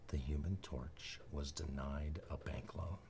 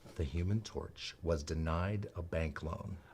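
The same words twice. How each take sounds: First: It is said softly but audibly. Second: It is said at a moderate volume.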